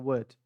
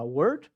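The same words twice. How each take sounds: First: WORD as "wuht", no R, falling; British, silent R. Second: WORD with the R sounded, rising; R articulado. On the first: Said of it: "ou você fala com sotaque britânico". (WORD sem R, à britânica) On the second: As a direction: say WORD American style, pronouncing the R. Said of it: "se você não consegue falar esse R". (WORD com R, em tom de pergunta) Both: Shown as a demonstration.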